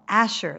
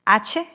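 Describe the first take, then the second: First: The name is said with an 'sh' like shh. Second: The name is said like Spanish 'ache', with 'ch'. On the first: The speaker corrects the name. The speaker calls it right. "like shh" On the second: The speaker mishears the name. The speaker calls it wrong. "like H in Spanish, says Sister Teresa"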